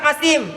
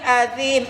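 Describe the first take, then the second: First: The middle consonant is a plain s sound. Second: The middle consonant is made with the tongue between teeth. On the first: The speaker calls it wrong. "bukan asim" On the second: The speaker calls it right. "tapi azim, azim di, di ujung lidah digigit"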